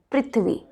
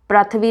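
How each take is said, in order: First: पृथ्वी as "prith-vi"; correct पृथ्वी. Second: पृथ्वी as "pra-tha-vi"; wrong पृथ्वी. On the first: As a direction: start पृथ्वी with "pri", थ joined to व. (पृथ्वी, प्रि से शुरू) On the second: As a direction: open the first vowel of पृथ्वी to "pra". (पृथ्वी को प्रथवी जैसा) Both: Shown as a demonstration. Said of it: "पृथ्वी नहीं होता है".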